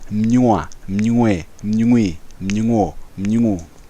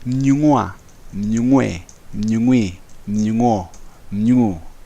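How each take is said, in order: First: The syllables are said fast. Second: The syllables are said slowly.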